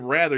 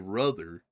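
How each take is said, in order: First: The first vowel is the open 'a' sound. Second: The first vowel is the 'uh' sound. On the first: "You never say rather" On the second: "you say ruther"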